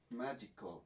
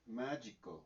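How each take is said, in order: First: Magical, stress on the syllable MA; stress on first syllable. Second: Magical repeated, stressed on MA; stress on first syllable. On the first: Teacher demonstrating the word to students, stress on MA. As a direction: model magical with the weight on MA. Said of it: "la pronunciación sería entonces". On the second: Teacher repeats the model word for the class, stress on MA. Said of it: "la pronunciación sería entonces magical". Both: Shown as a demonstration.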